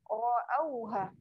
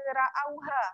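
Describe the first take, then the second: First: The ra sound is thick and full. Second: The ra sound is thin and light. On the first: The speaker calls it right. "Yang ni tebal" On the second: The speaker calls it wrong. "yang ni tak boleh baca ra'auha"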